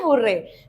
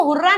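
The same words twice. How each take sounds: First: हुर्रे ending in an "ay" sound, low and falling; correctly pronounced hurray. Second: हुर्रा with an open "aa" ending; mispronounced hurray. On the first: Teacher answers how to read it, हुर्रे ending in "ay". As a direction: say हुर्रे with a final "ay", dropping low. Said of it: "क्या पढ़ना है?". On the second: Teacher shows students the wrong reading, हुर्रा ending in "aa". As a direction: end हुर्रा on "aa" instead of "ay". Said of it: "इसको हुर्रा नहीं पढ़ना है". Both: Shown as a demonstration.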